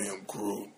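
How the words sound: It is said in a hungry way.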